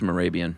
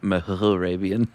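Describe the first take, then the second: First: The name is said without an h sound. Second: The name is said with an h sound. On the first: The speaker calls it right. "I bet the H is silent" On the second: The speaker calls it wrong.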